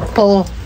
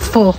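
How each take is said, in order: First: The word begins with a P sound. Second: The word begins with an F sound. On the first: The speaker calls it wrong. "Akala ko dati basa doon" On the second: The speaker calls it right. "Ang basa pala doon is"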